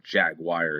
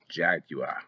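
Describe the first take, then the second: First: "Jaguar" the US way, ending in "wire"; American pronunciation. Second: "Jaguar" said the Spanish way, ending in an open "wah"; Spanish-style pronunciation. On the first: Player giving the United States version, American pronunciation of "Jaguar". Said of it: "as we say in the United States". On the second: Player reading animal names off a sign, Spanish-style pronunciation of "Jaguar". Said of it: "or Jaguar as we say in the United States". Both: Shown as a demonstration.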